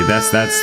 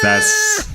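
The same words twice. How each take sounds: First: Said in the usual way. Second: Very high squeaky that's, that's. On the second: Pretend. Squeaky repeat of stammer.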